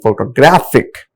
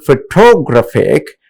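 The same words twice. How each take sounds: First: "photographic" stressed on GRAPH; third-syllable stress. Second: "photographic" stressed on the second syllable, TO; misplaced stress. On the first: Teacher correcting students, "photographic" stressed on the third syllable. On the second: Teacher showing students' mistake, "photographic" stressed on TO. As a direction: punch TO in "photographic". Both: Shown as a demonstration. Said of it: "the other syllables what exactly to be".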